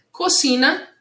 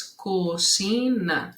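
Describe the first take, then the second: First: Said in the usual way. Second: Slow, separated co-ci-na; cocina split in syllables. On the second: Shown as a demonstration. Teacher counting syllables for pupils, cocina syllable by syllable. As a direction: give each syllable of cocina its own beat. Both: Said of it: "três sílabas".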